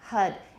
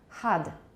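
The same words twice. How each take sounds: First: The vowel is the American cup sound. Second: The vowel sounds more open, like ah. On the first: "In American, it's a, cup, hud" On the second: "In British, it sounds more like ah, hud"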